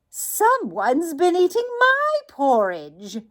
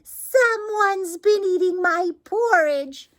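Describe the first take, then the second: First: It is said in a medium-sized voice. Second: It is said in a wee, small voice.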